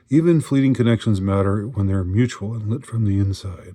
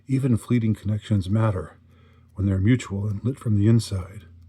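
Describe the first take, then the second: First: It is read in a warm, positive tone. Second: It is read in a grumpy, sour tone. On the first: The words are sincere and meaningful. The speaker calls it right. "in as positive as, as possible light" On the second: The words seem like flighty nonsense. The speaker calls it wrong. "I'm reading this with a kind of uh, uh, grumpy uh, attitude"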